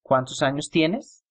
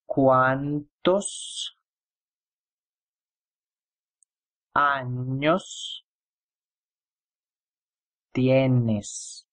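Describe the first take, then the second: First: The question is spoken at normal speed. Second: The question is spoken slowly. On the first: "I'm going to read this um, question as I normally do it" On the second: "I'm going to pronounce it slowly"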